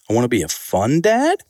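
The voice rises at the end.

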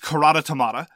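The name is said with a German pronunciation. "In German, it's"

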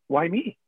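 It sounds like a curious, open question.

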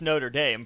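The name is pronounced with an English pronunciation.

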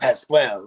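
The name is said with a French pronunciation.

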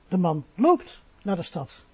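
The word 'loopt' carries the main stress. He walks rather than drives. "Hij rijdt niet, maar hij loopt"

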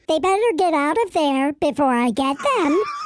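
It is said in an unthreatening voice.

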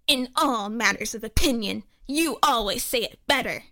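It is read in a funny put-on voice.

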